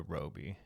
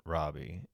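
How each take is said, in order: First: "Roby" said as ROH-bee; corrected pronunciation. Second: "Robbie" said as RAH-bee; common pronunciation. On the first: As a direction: say "Roby" with a long o, like robe. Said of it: "people correct it to Roby". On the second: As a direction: say "Robbie" with an open ah, like rob. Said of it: "people saying Robbie". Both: Shown as a demonstration.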